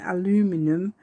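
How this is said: It is said with an American pronunciation. "in the U S A"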